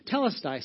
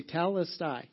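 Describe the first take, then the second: First: Telestai said as teh-LES-tie; Greek word demo. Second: Telestai drawn out slowly, teh-LES-tie; slow, careful telestai, every syllable clear; slow Greek demo. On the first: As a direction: model Telestai for the room to repeat. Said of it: "I'll teach you some Greek". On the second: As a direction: spell out telestai slowly so they can copy it. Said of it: "Say that with me". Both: Shown as a demonstration.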